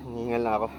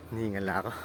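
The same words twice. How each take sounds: First: Panting mid-climb; breathless, still climbing; out of breath. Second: Winded from the stairs; panting, breath running short. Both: Real, not acted.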